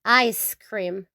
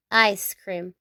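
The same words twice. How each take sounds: The two takes are said the same way.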